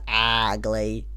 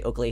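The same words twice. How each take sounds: First: Every sound of the word is exaggeratedly crisp. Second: The word is said plainly, without extra effort. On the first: "he really over enunciates it" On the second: "he doesn't say ugly"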